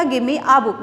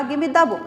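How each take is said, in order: First: Said in the usual way. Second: "the" given weight before "book"; stress on the. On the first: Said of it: "मैंने ये नहीं कहा". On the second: Shown as a demonstration. Teacher contrasting the with a, stressing "the". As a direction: lean on "the" to point at one book. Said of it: "मैंने कहा".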